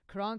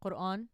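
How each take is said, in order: First: The word is said with English pronunciation. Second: The word is said with Arabic pronunciation.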